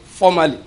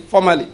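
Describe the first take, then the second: First: One firm word for the congregation to echo; stressed formerly. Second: "Formerly" repeated with a firm falling end; a clear repeated cue for the congregation; stressed formerly again. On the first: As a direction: lead the church in saying "Formerly". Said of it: "let's repeat that word again". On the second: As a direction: prompt the echo of "Formerly" once more. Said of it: "repeat it again". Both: Shown as a demonstration.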